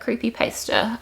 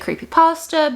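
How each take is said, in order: First: The word ends like someone who pastes. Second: The word ends like the food pasta. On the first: The speaker calls it right. "I think that's right" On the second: The speaker calls it wrong. "some people will say creepypasta"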